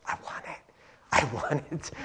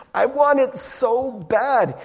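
First: Breathy whisper rising to a low murmur; hushed craving. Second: Higher, slow, drawn-out longing; intense craving. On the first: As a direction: covet it under your breath. Acted craving, building from whisper. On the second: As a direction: burst out with aching want. Acted craving at its peak. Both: Acted.

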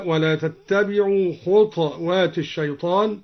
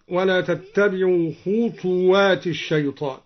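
First: خطوات said "khutwaat", no vowel on ta; still ta in خطوات. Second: Said in the usual way. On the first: Shown as a demonstration. Teacher showing al-Duri's reading, خطوات as "khutwaat". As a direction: close the ta of خطوات straight into waw. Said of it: "قرأ الدوري بإسكان الطاء هكذا". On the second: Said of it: "قرأ الدوري بإسكان الطاء".

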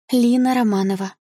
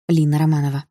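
First: Put-on high, small girlish voice; meek schoolgirl reply, pitched up; timid schoolgirl. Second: Said in the usual way. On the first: A narrator's reading. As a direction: give the name shyly. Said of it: "ответила она тихо". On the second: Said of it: "осторожно предложила я".

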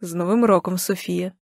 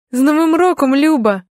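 First: Lightly voiced man, subdued; soft, low-key male greeting, falling away; a hint of a quiet man; man's voice on phone. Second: Bright, high, loud holiday wish; happy, raised-voice New Year cheer; joyful greeting. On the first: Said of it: "Чую чоловічий голос". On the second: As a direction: greet a close friend with delight. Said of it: "говорю радісно". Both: A narrator's reading.

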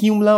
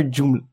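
First: "Joomla" with a Y sound, YOOM-la; Y-sound pronunciation. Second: "Joomla" with a hard J, JOOM-la; J-sound pronunciation. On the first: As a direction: start "Joomla" like "you". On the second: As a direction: start "Joomla" like "June". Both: Shown as a demonstration. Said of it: "Is it really pronounced".

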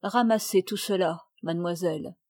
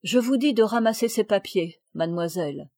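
First: Put-on calm, even command to a naughty girl; calm firm order. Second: Firmer repeated order. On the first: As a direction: stay calm, no anger. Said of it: "d'un ton calme". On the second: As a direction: repeat the order with more weight. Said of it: "répéta madame de Fleurville". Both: A narrator's reading.

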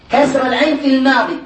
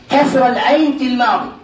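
No difference in how they are said.

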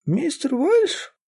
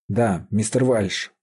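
First: Put-on very high, drawn-out questioning old voice; old woman querying. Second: Said in the usual way. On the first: A narrator's reading. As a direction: ask back like a half-deaf old woman. Deaf old woman queries the name.

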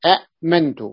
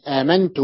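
First: أأمنت with a glottal catch after short a; vowelled then silent hamza. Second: آمنت with long aa, no catch; long initial vowel. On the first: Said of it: "متحرك فساكن". (أأمنت بهمزة متحركة ثم ساكنة) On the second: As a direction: glide from the aa into mantu in آمنت. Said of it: "ألفا". (آمنت بمدّ الألف) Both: Shown as a demonstration.

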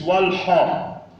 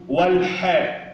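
First: والحاء with dark backed "ho"; wrongly heavy ح. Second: والحاء with thin front "ha"; light ح. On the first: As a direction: thicken the vowel after ح in والحاء. (والحاء بتفخيم الحاء خطأً) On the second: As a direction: keep the vowel after ح in والحاء light. (والحاء بترقيق الحاء) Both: Shown as a demonstration. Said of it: "والحاء مش والحاء".

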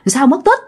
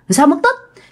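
First: Raised, alarmed "Sao mất tích?"; first startled "Sao mất tích?", rising; startled question. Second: "Sao mất tích?" again, much higher and more alarmed; repeated "Sao mất tích?", pitched up in disbelief; more startled question. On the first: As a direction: ask in shock, the news just landing. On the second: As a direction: push the shock higher as it sinks in. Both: Retold or imitated. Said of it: "bạn mới hết hồn".

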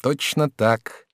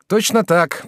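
First: Slow, drawn-out repeat. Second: Eager. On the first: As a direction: draw out "Точно так" slowly. Jacques repeats himself. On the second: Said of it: "подхватил Жак". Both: A narrator's reading.

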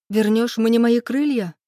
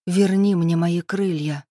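First: High, heated blurted question. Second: Slow, deliberate demand; defiant demand. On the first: Woman cutting off her lover's promise, blurting a challenge. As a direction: burst out with it, climbing in pitch. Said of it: "выпалила я". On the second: Woman challenging her lover, demanding it slowly and defiantly. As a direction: draw the demand out slowly, chin up. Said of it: "вздёрнув подбородок, добавила". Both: A narrator's reading.

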